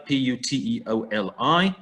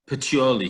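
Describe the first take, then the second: First: Name each letter of P U T E O L I; spelled out. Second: Said in the usual way. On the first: Shown as a demonstration. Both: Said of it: "he calls it here".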